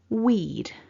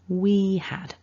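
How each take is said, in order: First: It is said as one short syllable. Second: It is said as two full syllables. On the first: "Our contracted form then" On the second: "the full form"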